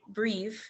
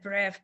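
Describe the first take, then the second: First: The word is given an English pronunciation. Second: The word is given a French pronunciation. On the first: The speaker calls it right. "it's really breve" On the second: The speaker calls it wrong. "I would have said bref because it's French"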